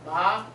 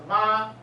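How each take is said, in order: First: The pitch rises from mid to high. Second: The pitch stays high and level. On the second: "It's a high flat"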